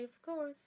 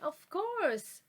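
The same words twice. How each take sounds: First: It is said in a slightly sad tone. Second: It is said in a happy, helpful tone. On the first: The speaker feels a little down. "like I am a little bit sad" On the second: The speaker is glad to help. "like I am happy to help, happy"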